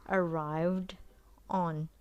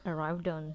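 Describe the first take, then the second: First: The two words are said separately. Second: The two words are linked together.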